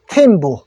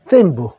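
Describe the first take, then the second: First: It begins with a plain 't' sound. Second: It begins with a 'th' sound, like 'theme'. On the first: "부탄은 팀부" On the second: "영어로는 theme부"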